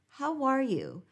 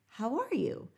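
First: A W glide links the words smoothly. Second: The same.

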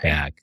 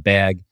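First: It is said with a general American vowel. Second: It is said with a Midwest-style vowel.

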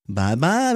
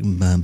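First: It sounds like talking to a baby. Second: It is said in a sexy voice.

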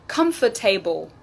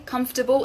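First: The ending is a full 'able' like the word able. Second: The ending is a short, reduced weak syllable. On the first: The speaker calls it wrong. "I often hear comfortable ... No, no, no" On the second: The speaker calls it right. "when the words are slightly longer, we change the pronunciation of able"

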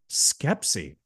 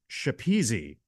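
First: The name begins with an 'sk' sound. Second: The name begins with an 'sh' sound. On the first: The speaker calls it right. "phonetically it said Skepsi" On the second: The speaker calls it wrong. "as I would personally in my head was pronouncing it"

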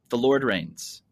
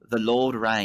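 First: It is said in an American accent. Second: It is said in an Australian accent.

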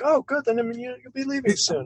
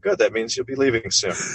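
First: The line sounds friendly and charming. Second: The line sounds blunt and openly hostile. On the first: "He says it more like" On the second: "He doesn't say it with the tone I just used"

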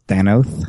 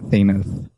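First: The first syllable rhymes with 'than'. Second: The first syllable rhymes with 'thane'. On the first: The speaker calls it right. "It's pronounced Thanos, He's a Than" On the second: The speaker calls it wrong. "not Thanos. He's not a Thane"

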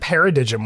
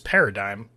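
First: The g in the word is pronounced. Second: The g in the word is silent. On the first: The speaker calls it wrong. "I said paradigm one time" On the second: The speaker calls it right. "when the word is paradigm"

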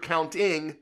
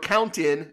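First: The final g sound is pronounced. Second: The final g sound is dropped.

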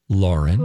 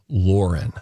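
First: The first vowel is an open 'ah' sound. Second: The first vowel is a rounded 'or' sound. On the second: "Instead of L-O-R-E-N"

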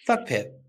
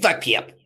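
First: It is said in a plain, ordinary voice. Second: It is said in a funny, put-on voice.

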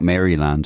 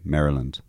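First: It is said the Irish local way. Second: It is said the American way. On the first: It names the estate back home. "as I used to think it was called" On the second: It names the US state. "we didn't say Maryland"

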